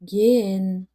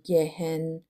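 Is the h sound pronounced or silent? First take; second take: silent; pronounced. First: The h is silent; the vowel is lengthened. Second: A strong h sound is pronounced. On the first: The speaker calls it right. "مثل گن" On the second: The speaker calls it wrong. "نمیگیم گهن، این ه شدید تلفظ نمیشه"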